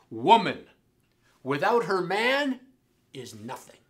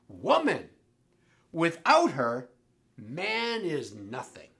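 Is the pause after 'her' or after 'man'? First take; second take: after man; after her. First: The pauses come after 'woman' and after 'man'. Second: The pauses come after 'woman' and after 'her'.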